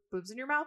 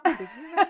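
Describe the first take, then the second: First: Higher, puzzled rising question; incredulous question. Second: Much higher and louder, a squealing repeat; shrieked disbelief. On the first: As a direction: ask it in mock disbelief. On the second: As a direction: shriek the echo in mock outrage. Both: Retold or imitated. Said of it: "I wish my babies had boob".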